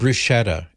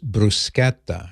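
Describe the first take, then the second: First: The middle consonant is a soft sh sound. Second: The middle consonant is a hard k sound. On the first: The speaker calls it wrong. "It's not bruschetta" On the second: The speaker calls it right. "that CH is pronounced like a K"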